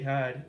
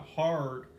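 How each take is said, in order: First: The R sound in the word is dropped. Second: The R sound in the word is fully pronounced. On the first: The speaker sounds like a local from the Boston area. "you could just say hard. It's a lot easier" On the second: The speaker sounds like a generic American. "I'm from generic America"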